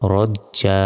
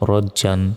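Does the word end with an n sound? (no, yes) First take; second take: no; yes. First: The word ends without a final n sound. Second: The word ends with a final n sound. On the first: The reader stops on this word. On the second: The reading continues without stopping.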